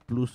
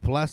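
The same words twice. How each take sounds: First: It is said with a Spanish pronunciation. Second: It is said with an English pronunciation. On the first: "y Plus en español" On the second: "Plus se dice en inglés"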